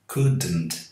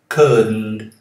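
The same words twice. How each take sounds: First: An extra vowel sound follows the D. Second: The D runs straight into the N sound. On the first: The speaker calls it wrong. "Um vício muito comum entre os brasileiros. Eles falam couldn't" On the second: The speaker calls it right. "deixe a língua no céu da boca quando fala o D ... e já começa o som do N"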